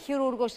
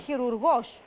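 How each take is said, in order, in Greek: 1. Ο τόνος είναι στη μεσαία συλλαβή. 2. Ο τόνος είναι στην τελευταία συλλαβή. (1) "δεν είναι χειρούργος, ... Το χειρούργος είναι σαν να λέμε κακούργος" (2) "είναι χειρουργός. ... ο χειρουργός είναι, πώς λέμε, στιχουργός"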